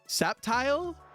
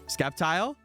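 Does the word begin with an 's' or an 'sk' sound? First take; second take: s; sk. First: The word begins with a plain 's' sound. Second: The word begins with an 'sk' sound. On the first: The speaker calls it right. "Is that how you pronounce it?" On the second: The speaker calls it wrong. "I always pronounce the C"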